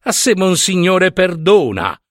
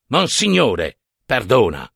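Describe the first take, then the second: First: High-pitched, light and airy; blithely dismissive, pitched up; breezy dismissal. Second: Slow, restrained indignation; measured, indignant repetition; indignant retort. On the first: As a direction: toss it off with a cheerful shrug. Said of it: "scosse allegramente le spalle". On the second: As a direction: echo it slowly with offended weight. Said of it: "rispose pronto il vecchio indignato". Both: A narrator's reading.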